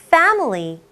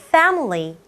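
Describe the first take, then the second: No difference in how they are said.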